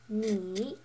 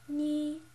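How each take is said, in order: First: The pitch dips low, then comes up. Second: The pitch stays level and high. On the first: "The third tone is the check mark" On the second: "the first tone, the flat tone"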